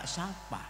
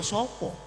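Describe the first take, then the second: First: Both vowels are pronounced as 'a'. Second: Both vowels are pronounced as 'o'. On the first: This is how it is said in Tegal, as written. "Sapa dibaca sapa" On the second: This is how it is said in Solo. "Kalau di Solo sopo?"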